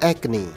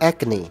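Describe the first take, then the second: The two takes are said the same way.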